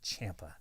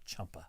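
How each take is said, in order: First: The first vowel sounds like the one in champ. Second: The first vowel sounds like the one in chump. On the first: The speaker calls it right. "it's Champa" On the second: The speaker calls it wrong. "not Chumpa"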